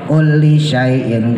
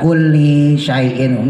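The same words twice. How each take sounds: First: The vowel in kulli is kept short. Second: The vowel in kulli is drawn out long. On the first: The speaker calls it right. "kulinya pendek" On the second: The speaker calls it wrong. "bukan kulli syai'in, enggak"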